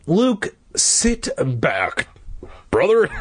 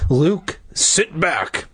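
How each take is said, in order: First: Slow, weary higher-pitched plea; pleading. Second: Firm, mildly exasperated dad; growled order. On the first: Dad to restless son, pleading. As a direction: draw it out, pleading with the boy. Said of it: "Dad pleaded". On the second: Dad finally giving up, mildly growling. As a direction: order him back with a touch of growl. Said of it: "Dad growled". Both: A narrator's reading.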